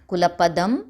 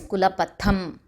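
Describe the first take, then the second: First: The consonant before the last syllable is 'd'. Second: The consonant before the last syllable is 'th'. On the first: The speaker calls it wrong. "It is not kulapadam" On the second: The speaker calls it right. "it is kulapatham"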